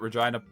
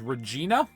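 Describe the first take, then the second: First: The name rhymes with 'vagina'. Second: The name does not rhyme with 'vagina'. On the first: This is how everyone actually says it. "everyone just calls it Regina" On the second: This is the formal pronunciation tied to the Queen City name. "Technically, the pronunciation um, is Regina, because it's the Queen City"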